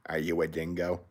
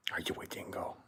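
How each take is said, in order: First: Said in the usual way. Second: Hushed, teasing whisper to a pet; playful whisper. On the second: Real, not acted. Owner asking his dog if it is a dingo, whispered.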